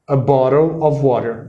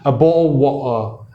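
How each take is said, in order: First: It is said in an American accent. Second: It is said in a traditional British accent.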